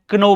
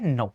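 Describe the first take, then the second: First: The word begins with a K sound. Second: The word begins with an N sound. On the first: The speaker calls it wrong. "कई बच्चे आपने देखा होगा कि क्या बोलते हैं, क्नो बोलते हैं" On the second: The speaker calls it right. "के की साउंड नहीं होगी, के चुप रहेगा"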